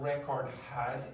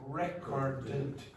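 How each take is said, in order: First: The word had is pronounced in full. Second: The word had is reduced and joined on. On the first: The speaker calls it wrong. "that's not record had" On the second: The speaker calls it right. "it's recorded"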